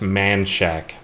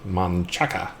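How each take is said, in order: First: The name is clipped to two English-sounding syllables. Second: The name has three syllables, said Spanish-style. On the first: The speaker is a local. The speaker calls it right. "the locals will correct you to say that's Man Shack" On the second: The speaker is a newcomer to the town. The speaker calls it wrong. "they pronounce it Monchaca. ... like in Spanish"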